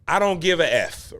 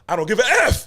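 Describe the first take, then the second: First: The last word is said plainly. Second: The last word is heavily emphasized.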